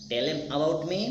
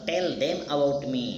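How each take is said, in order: First: 'Them' is reduced and linked into 'tellem'. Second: 'Them' is fully pronounced as a separate word. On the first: "टेलेम about me मतलब टेल देम about me" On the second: "तो उसको पढ़ेंगे टेल देम"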